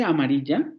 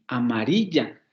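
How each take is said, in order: First: "amarilla" rising on its last syllable; question cadence. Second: "amarilla" stressed on "ri", falling after it. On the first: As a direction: say "amarilla" as a question, the end swinging up. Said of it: "estoy poniendo mayor peso fónico al final". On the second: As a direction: lean on the I of "amarilla" and let the ending drop. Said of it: "sigue cayendo en la I". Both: Shown as a demonstration.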